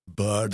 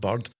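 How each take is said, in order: First: It is said with an English-sounding accent. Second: It is said with a Scottish accent.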